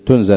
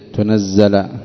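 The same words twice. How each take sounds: First: The z sound is short and single. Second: The z sound is held long and doubled. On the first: "بدون تشديد" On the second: "بالتشديد"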